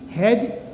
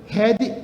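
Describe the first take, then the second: Both takes have the same delivery.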